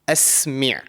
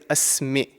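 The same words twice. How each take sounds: First: The consonant is a deep sound from the throat. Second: The consonant is a light glottal stop. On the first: The speaker calls it right. "I've produced this sound from the throat" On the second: The speaker calls it wrong. "then that automatically turns into an Hamza"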